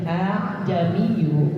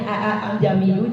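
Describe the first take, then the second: First: The second glottal stop is weakened and softened. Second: The second glottal stop is fully pronounced. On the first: "melemahkan bunyi hamzah yang kedua"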